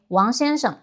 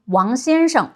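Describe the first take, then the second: First: Southern 王先生 with a softer 'sh' in 生; 王先生, tongue only half curled on 生; less curled tongue. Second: 王先生 with a strongly curled 'sh' in 生; northern-style 王先生, tongue curled back on 生. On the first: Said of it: "we would probably say". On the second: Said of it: "we tend to speak with less curled tongue". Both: Shown as a demonstration.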